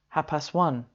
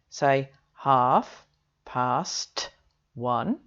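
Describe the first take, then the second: First: Several sounds are dropped, running the words together. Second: Every sound of the phrase is fully pronounced. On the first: The speaker calls it right. "most British native speakers will say something more like" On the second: The speaker calls it wrong. "We don't, for example, ... say half past one"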